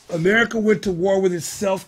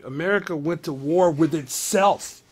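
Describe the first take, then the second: First: America went to war with itself, louder, weight on went; emphatic repeat. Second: Said in the usual way. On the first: Real, not acted. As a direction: hammer it home, stressing went. Repeats statement with more force.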